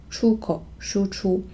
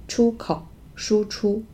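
No difference in how they are said.

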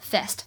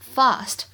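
First: It is said in an American accent. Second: It is said in a British accent. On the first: "而美式发音呢我们读作fast" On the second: "在英式发音当中呢它读作fast"

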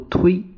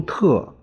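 First: The syllable is pronounced tui. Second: The syllable is pronounced te. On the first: The speaker calls it right. "一个读推" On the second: The speaker calls it wrong. "它一个是读特"

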